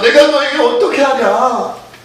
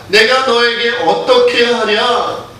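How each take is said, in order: First: It is said in an anguished, pleading voice. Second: It is said in a plain, calm voice.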